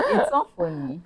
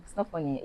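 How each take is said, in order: First: Half-laughing protest; laughing while saying it's not funny. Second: Said in the usual way. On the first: Real, not acted.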